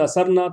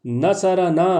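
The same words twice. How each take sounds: First: نصرنا as na-sar-na, no vowel after ر; wrong vowelless form. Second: نصرنا as na-sa-ra-naa, ر voweled; careful pronunciation. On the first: Teacher showing the wrong sentence, نصرنا with vowelless ر. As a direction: close the middle syllable of نصرنا on ر. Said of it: "sentence wrong ہو جائے گا". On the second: Teacher stressing pronunciation, نصرنا carefully voweled. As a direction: sound every vowel in نصرنا, especially after ر. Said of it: "تو pronunciation بہت ضروری ہے". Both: Shown as a demonstration.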